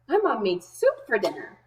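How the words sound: The voice sounds happy and cheerful. The person is pleased about the soup. "The first way I'm going to read it is happy"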